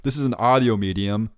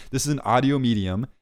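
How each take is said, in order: Both takes have the same delivery.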